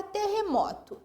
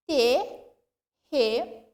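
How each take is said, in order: First: Said in the usual way. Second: "Terremoto" slowly split as te, rre, mo, to; syllable by syllable. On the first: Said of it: "O que que eu pronuncio". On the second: Shown as a demonstration. Teacher asking which syllable is stressed, "Terremoto" syllable by syllable. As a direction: give each syllable of "Terremoto" its own beat, with pauses. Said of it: "O que que eu pronuncio com mais tonicidade".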